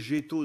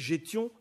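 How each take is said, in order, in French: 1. Le mot se termine par la voyelle o. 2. Le mot se termine par le son nasal ion. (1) "dans le nord" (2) "dans l'oise"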